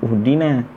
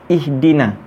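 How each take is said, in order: First: The word begins with a u vowel. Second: The word begins with an i vowel. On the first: The speaker calls it wrong. "Kenapa kita tak bunyi uhdina?" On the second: The speaker calls it right. "Kenapa kita bunyi dia ihdina?"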